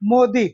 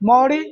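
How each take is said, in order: First: It has an 'o' vowel and a plain d. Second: It has an 'au' vowel and a flapped r. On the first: "मोदी भी इसका उच्चारण होता है" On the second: "मौड़ी बोलते हैं"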